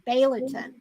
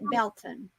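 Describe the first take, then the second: First: The name is said with three syllables, as spelled. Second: The name is said with two syllables, shortened. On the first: This is how the name is written. "it's spelt Baileyton" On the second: This is how local people say the name. "but they call it Belton"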